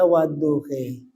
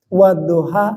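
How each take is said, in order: First: The word ends in an 'e' vowel. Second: The word ends in an open 'a' vowel.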